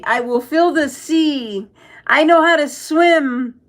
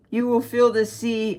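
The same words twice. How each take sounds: First: Slow, higher put-on voice mocking a comment. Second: Said in the usual way. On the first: Streamer mocks a chat comment in a slow, higher silly voice.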